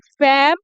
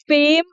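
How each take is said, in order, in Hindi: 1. स्वर छोटी खुली 'e' जैसी आवाज़ है। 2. स्वर 'ay' जैसी आवाज़ है। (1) "फैम गलत है" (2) "दोस्तों फेम है ये"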